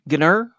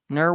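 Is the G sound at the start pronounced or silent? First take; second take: pronounced; silent. First: The word begins with a hard G sound. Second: The word begins with an N sound.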